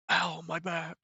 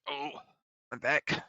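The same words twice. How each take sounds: First: Higher, failed Tobey Maguire impression; botched imitation of Tobey Maguire's whine. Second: Said in the usual way. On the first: Shown as a demonstration. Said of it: "Trying to sound like Tobey Maguire. Fucked it up, though". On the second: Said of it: "Trying to sound like Tobey Maguire".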